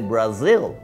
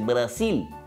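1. La consonante del medio es sonido z. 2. La consonante del medio es sonido s. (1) "Brasil se dice en inglés como con Z" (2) "En español se dice Brasil"

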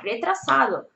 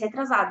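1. É dita com sotaque espanhol. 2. É dita com sotaque português. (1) "Se eles falam R forte, R, re, tra, e o S forte, sado, é assim que tu tem que falar" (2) "Eu falo assim em português"

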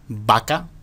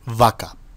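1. El primer sonido es una b hecha con los dos labios. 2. El primer sonido tiene una fricción ligera, parecida a una f. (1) "coincide más con esta forma japonesa de decir tonto" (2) "la V labiodental... un ligero sonido como de F"

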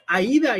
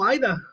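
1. El acento cae en la I. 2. El acento cae en la A. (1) "tiene acento la I" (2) "y no Aida"

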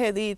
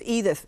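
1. El nombre se dice con sonidos españoles. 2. El nombre se dice con sonidos ingleses. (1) "en español es Edith" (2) "en inglés es Edith"

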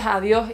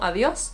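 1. La S final se omite o se aspira. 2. La S final se pronuncia claramente. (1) "¿por qué dices adiós" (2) "y no adiós? Es adiós"

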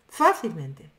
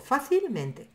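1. Solo una sílaba lleva el acento. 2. Tanto fa como men llevan acento. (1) "no digo eso" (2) "hago fuerza en fa y en men"

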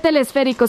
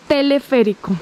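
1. Un sonido s extra sigue a 'tele'. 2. No sigue ningún sonido s a 'tele'. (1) "no se dice telesférico" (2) "se dice teleférico"

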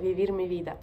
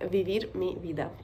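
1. Фраза произносится в обычном темпе. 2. Фраза произносится немного медленнее.

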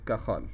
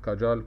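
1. الصوت الأوسط هو 'kh' خشن من الحلق. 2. الصوت الأوسط هو صوت 'j'. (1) "الجي هنا هتنطق زي الخاء" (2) "وفي بعض بينطقها كاجال"

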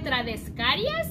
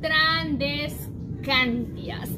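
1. El nombre termina en -carias, sin la n. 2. El nombre termina en -cantias, con la n. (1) "yo le decía Trandescarias" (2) "y es Trandescantias"

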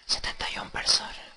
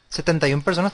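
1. Se dice en voz baja, suavemente. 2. Se dice a un volumen normal de voz.

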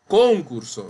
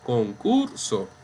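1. La sílaba tónica es la primera. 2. La sílaba tónica es la del medio. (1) "porque esa palabra no existe. Concurso no existe" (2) "Decimos concurso"

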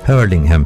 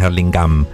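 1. La segunda h se pronuncia claramente. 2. La segunda h se queda muda. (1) "ojo que la segunda H también se marca" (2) "no es Hurlingham"

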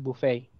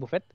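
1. La palabra se pronuncia a la manera inglesa. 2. La palabra se pronuncia a la manera española. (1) "el que es en inglés es Buffet" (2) "en español sí le dicen Buffet"

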